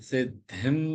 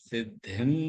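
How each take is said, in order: Both takes have the same delivery.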